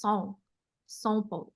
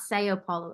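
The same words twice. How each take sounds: First: São Paulo with São as one nasal "sown"; soft nasal São, then a short Paulo. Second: American São Paulo without the nasal; Americanized São Paulo. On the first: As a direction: send São through the nose, softly. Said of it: "a weird nasal sound". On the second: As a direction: pronounce São as two open syllables, "say-oh". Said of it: "It's not São Paulo". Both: Shown as a demonstration.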